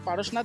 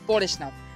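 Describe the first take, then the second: First: The name is pronounced the Hindi way. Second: The name is pronounced the Bengali way. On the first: "হিন্দিতে উচ্চারণ করলে সেটা হবে পারশনাথ" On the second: "বাংলাতে উচ্চারণ করলে সেটা হবে পরেশনাথ"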